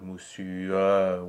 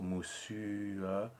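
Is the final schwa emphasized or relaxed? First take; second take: emphasized; relaxed. First: The final schwa is stressed and emphasized. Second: The final schwa is soft and relaxed. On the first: The speaker calls it wrong. "and not moussu, where you really emphasize the schwa" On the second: The speaker calls it right. "the important sound here is the U, and then the schwa releases from that"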